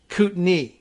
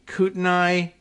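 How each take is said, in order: First: The final syllable sounds like 'knee'. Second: The final syllable does not sound like 'knee'. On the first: The speaker calls it right. "it's in fact uh, Kootenai. I don't know why N A I gets pronounced knee" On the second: The speaker calls it wrong. "we were guessing that it might be"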